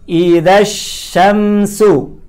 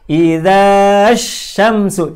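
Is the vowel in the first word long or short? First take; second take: short; long. First: The vowel in the first word is short. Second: The vowel in the first word is long. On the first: The speaker calls it right. "dibacanya pendek" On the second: The speaker calls it wrong. "Tidak boleh kita baca"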